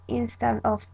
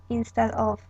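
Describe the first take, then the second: No difference in how they are said.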